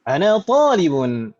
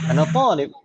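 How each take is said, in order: First: The final ending of the last word is pronounced. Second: The final ending of the last word is dropped. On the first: This is careful speech while still learning. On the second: This is casual everyday conversation.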